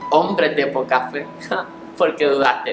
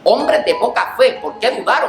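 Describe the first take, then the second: First: It is said in a kind, gentle tone. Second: It is said in a strong, harsh tone.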